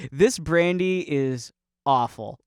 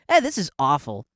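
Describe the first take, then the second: First: Slow, deliberate mock compliment; mock awed praise. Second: Mock offhand criticism; dismissive. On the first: Praising brandy in the old sense, slow mock reverence. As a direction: draw it out as grand praise. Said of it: "worthy of awe". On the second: Someone today judging brandy, lightly dismissive. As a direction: brush it off with mild disdain. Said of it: "to us now".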